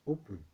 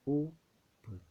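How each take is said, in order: First: Said in the usual way. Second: "open" pulled apart into o and pen; syllable split. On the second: Shown as a demonstration. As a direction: say "open" as two separate beats, o, pause, pen. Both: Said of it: "Two syllable word as well".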